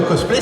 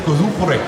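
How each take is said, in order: First: The word is said with an English pronunciation. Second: The word is said with a Japanese pronunciation. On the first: "c'est un mot anglais" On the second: "le mot cosplay en fait dit avec l'intonation japonaise"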